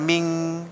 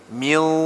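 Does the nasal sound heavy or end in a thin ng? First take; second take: thin ng; heavy. First: The nasal is thin, ending in an ng sound. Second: The nasal is heavy, without a final ng sound. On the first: The speaker calls it wrong. "jangan ming" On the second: The speaker calls it right.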